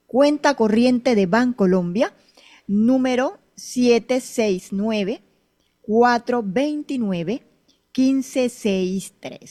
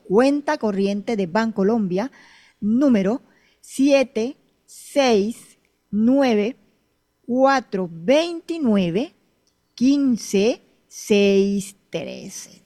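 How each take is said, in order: First: It is read at normal speed. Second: It is read more slowly.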